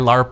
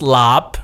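First: The word is said with an R sound. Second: The word is said without an R sound. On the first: The speaker calls it wrong. "that's just continuing the incorrect pronunciation" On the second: The speaker calls it right. "it's pronounced"

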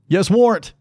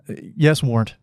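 First: The reply is shouted loudly. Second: The reply is said more quietly. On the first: "don't yell" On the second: "Lowering my tone slightly"

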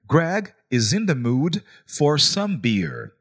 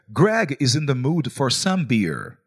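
First: It is said more slowly. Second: It is said at normal speed.

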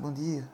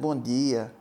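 First: It is said flatly, barely audible. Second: It is said warmly and with real feeling.

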